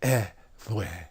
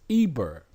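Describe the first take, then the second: First: The middle consonant is a soft V-like sound. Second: The middle consonant is a clear B sound. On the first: This is the original ancient pronunciation. The speaker calls it right. "In ancient Shemitic language, it's, it would be something like eh, vwe" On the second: This is the later English pronunciation. The speaker calls it wrong. "because now we're speaking the English language and we're under English rule, they pronounce it as Eber"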